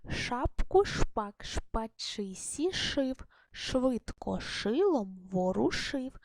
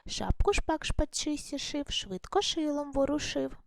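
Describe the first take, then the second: First: It is read slowly, sounding out every sound. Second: It is read a little faster than before. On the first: "Я не даремно прочитала саме так повільно" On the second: "Тепер давайте трішки швидше спробуємо прочитати"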